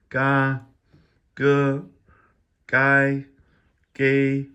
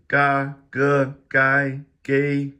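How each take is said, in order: First: The syllables are said more slowly. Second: The syllables are said quickly. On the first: The speaker calls it right. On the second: The speaker calls it wrong.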